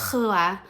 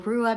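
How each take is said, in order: First: The R is made far back in the throat. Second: The R is rolled or tapped at the front. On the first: The speaker calls it right. "that R sits further back in the throat" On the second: The speaker calls it wrong. "you're expecting a rolled or tapped R"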